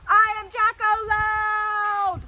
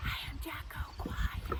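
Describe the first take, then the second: First: High, slow full-volume shout; very loud voice. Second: Hushed, voiceless delivery; quiet whisper. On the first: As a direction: belt it out for the kids. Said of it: "How about Jacko loud". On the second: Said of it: "How about Jacko quiet". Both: Shown as a demonstration.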